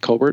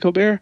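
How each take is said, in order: First: It does not sound like the famous host's surname. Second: It sounds like the famous host's surname. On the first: This is how other people say the name. The speaker calls it wrong. "people for some reason always choose to pronounce mine Colbert" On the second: This is how the name's owner says it. The speaker calls it right. "though I pronounce it Colbert"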